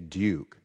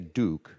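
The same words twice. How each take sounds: First: The vowel has a y sound before it. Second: The vowel has no y sound before it. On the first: The speaker calls it right. "A little bit of a y sound" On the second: The speaker calls it wrong. "You wouldn't say duke"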